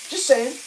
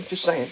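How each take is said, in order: First: "Just saying" again, pitched higher and pointed; a higher, sassier "Just saying"; sarcastic repeat. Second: Said in the usual way. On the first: Shown as a demonstration. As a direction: tack it on with a sarcastic lilt.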